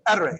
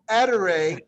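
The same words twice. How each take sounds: First: The word is said very quickly. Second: The word is said slowly and carefully. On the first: "you're going to go etere real quick" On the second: "So you're going etere"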